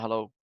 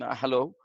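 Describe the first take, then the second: First: It is said in a cold, menacing villain's tone. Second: It is said in a hesitant, nervous tone. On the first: "like a villain who is not pleasing in an unpleasing manner" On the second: "if I'm getting nervous"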